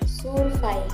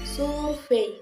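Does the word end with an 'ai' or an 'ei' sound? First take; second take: ai; ei. First: The word ends with an 'ai' sound. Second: The word ends with an 'ei' sound. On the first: "dapat juga dikatakan dengan survei" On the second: "contohnya itu pada kata survei"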